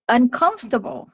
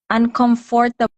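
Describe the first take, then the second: First: It is said with an American pronunciation. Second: It is said with a Filipino pronunciation.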